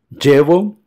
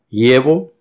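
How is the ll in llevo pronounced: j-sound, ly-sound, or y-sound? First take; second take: j-sound; y-sound. First: The ll sounds like an English j sound. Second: The ll sounds like an English y sound. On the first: "como un D J do portugués" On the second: "como si fuese una letra I"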